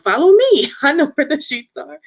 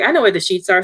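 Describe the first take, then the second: First: Eager. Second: Said in the usual way. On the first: Retold or imitated. Sing-song leading the way.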